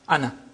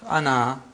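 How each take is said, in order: First: The final vowel is short. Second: The final vowel is long. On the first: The word is read in continuous speech. "as if it is hamza plus noon fatha" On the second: The word stands at a pause. "With the alif pronounced"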